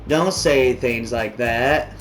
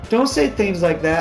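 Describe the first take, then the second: First: The line is read in a put-on character voice. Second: The line is read in a normal voice. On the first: "let me get into my raven" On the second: "I don't know what voice to give her"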